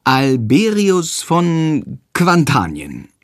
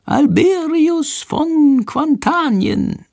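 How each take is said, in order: First: Slowly echoing "Alberius von Quantanien" word by word; slow, careful repeating. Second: Very high, very slow, drawn-out prompt; high, slow creature prompting; Shandor prompting. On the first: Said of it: "spricht langsam nach". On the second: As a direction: spell out "Alberius von Quantanien" slowly like a whispered cue. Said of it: "Shandors leise Stimme". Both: A narrator's reading.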